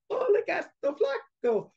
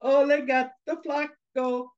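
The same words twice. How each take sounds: First: Put-on very high, squeaky little-girl taunt; teasing little girl. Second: Higher, slow taunting chant; teasing taunt. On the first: Girls sticking arms out to tease the cat, taunting. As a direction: tease in a tiny girlish voice. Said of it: "and the girls going". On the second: Acted. Mice really teasing the fallen cat, taunting. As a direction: stretch it out to tease the cat. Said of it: "really started to tease that cat".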